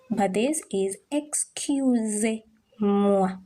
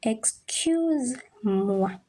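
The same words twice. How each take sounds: First: "excusez-moi" drawn out slowly with a clear "-sez"; slow the word down so the extra syllable shows; careful French pronunciation. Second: "Excuse-moi" said very slowly, syllable by syllable; careful French pronunciation. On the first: Teacher contrasts "excusez-moi" slowly for learners. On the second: Teacher models "Excuse-moi" slowly for the class. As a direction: stretch out "Excuse-moi" for learners. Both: Shown as a demonstration. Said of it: "Do you note the difference between the pronunciation".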